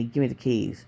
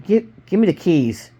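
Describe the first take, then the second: First: Low, softened gunman's order; controlled, low-voiced threat; low command. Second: Agitated, stammered gunman's demand; mildly raised, impatient order; angry. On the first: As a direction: demand it quietly, pitch dropped. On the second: A narrator's reading. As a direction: demand it angrily, tripping on the first word. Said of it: "he asked angrily".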